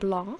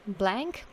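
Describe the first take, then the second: First: The name is pronounced the French way. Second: The name is pronounced the English way.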